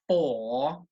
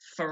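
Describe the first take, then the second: First: The vowel is full and clearly pronounced. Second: The vowel is reduced and unstressed. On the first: The speaker calls it wrong. "So it's not for" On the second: The speaker calls it right. "It's a weak sound"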